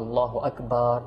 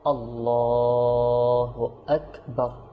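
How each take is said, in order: First: The vowel after the L is not drawn out. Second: The vowel after the L is drawn out long. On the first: The speaker calls it wrong. "এভাবে যেন না হয়" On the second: The speaker calls it right. "টানবো কোথায় লামে"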